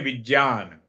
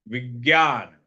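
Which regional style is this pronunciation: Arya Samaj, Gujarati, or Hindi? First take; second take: Arya Samaj; Hindi. First: It is said the Arya Samaj way. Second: It is said the Hindi speakers' way.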